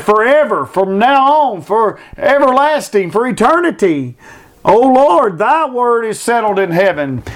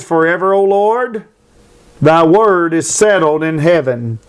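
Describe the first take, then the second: First: Higher, rising preacher's cry; fervent pulpit preaching; preaching at full force. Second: Said in the usual way. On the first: Acted. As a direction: proclaim the verse to the congregation. Verse repeated in full preaching.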